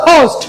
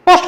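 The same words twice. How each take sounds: First: "পোস্ট" opened with a puffed ph; correct aspirated pronunciation. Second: "পোস্ট" with unaspirated p and pure o; no puff of air on "পোস্ট"; wrong everyday pronunciation. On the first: Teacher correcting post for learners, aspirated p. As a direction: breathe out on the p of "পোস্ট". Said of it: "কি হবে?". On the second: Teacher showing the YouTube habit of saying post, unaspirated. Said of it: "পোস্ট হবে না". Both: Shown as a demonstration.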